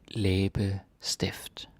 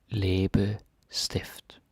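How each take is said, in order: The two takes are said the same way.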